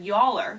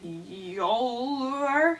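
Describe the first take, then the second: First: Said in the usual way. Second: "Yowler" stretched long and slow, rising; drawn-out name. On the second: Shown as a demonstration. Author trying out a made-up name, "Yowler" drawn out slowly. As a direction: drag out "Yowler" as if testing it.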